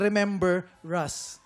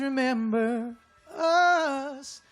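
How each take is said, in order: First: The word us starts with an R sound. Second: The word us starts with a plain vowel. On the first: The speaker calls it wrong. "nilagay niyo yung R ulit" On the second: The speaker calls it right. "yung R dun sa us kasi pinutol niyo na po siya"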